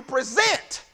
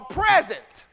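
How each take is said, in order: First: "present" as the verb, pre-ZENT; stress on second syllable. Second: "present" as the noun, PREZ-ent; stress on first syllable. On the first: Preacher reading that you present your bodies, "present" stressed pre-ZENT. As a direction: say "present" with the weight on its last syllable. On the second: Preacher offering the other reading, "present" stressed PREZ-ent. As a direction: say "present" with the weight up front. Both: Shown as a demonstration.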